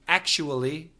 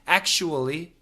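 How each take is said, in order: Both takes have the same delivery.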